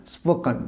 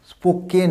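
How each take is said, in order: First: "স্পোকেন" with a weak kun ending; spo-kuhn for "স্পোকেন", falling away; correct pronunciation. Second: "স্পোকেন" with a stressed, full ken; spo-KEN for "স্পোকেন"; wrong pronunciation. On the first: Teacher correcting the learners, reduced ending. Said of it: "উচ্চারণ হবে". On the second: Teacher rejecting the common error, full-vowel ending. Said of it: "স্পোকেন না". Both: Shown as a demonstration.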